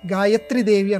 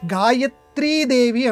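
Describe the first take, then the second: First: The vowel of 'tri' is kept short. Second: The vowel of 'tri' is held long. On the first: The speaker calls it wrong. "గాయత్రిదేవి అనకూడదు" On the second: The speaker calls it right. "గాయత్రీదేవి అనాలి. ... తీకి దీర్ఘం పెట్టాలి"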